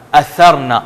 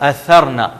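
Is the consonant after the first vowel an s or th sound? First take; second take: th sound; th sound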